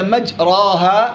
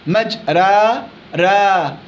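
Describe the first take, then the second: First: The long vowel is a pure open a. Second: The long vowel sits between a and ee. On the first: "بالفتح" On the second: "بالتقليل إمالة صغرى"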